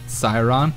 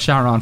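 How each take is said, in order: First: The name begins with an 's' sound. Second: The name begins with a 'sh' sound. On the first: The speaker calls it wrong. "it wasn't Siron" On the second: The speaker calls it right. "we'll go with Charon from now on"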